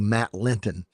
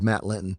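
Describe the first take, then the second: First: The T in Linton is sharp and crisp. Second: The T in Linton is soft and unclear. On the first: The speaker calls it right. "we who enunciate properly, we say Matt Linton" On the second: The speaker calls it wrong. "he probably says Matt Linton"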